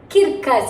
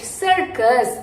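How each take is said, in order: First: The first C is said as a K sound. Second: The first C is said as an S sound. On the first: The speaker calls it wrong. "it's not kirkus" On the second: The speaker calls it right. "It is sir, circus"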